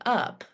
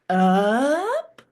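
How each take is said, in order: First: It is said with a plain, level pitch. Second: The voice rises in pitch on the word.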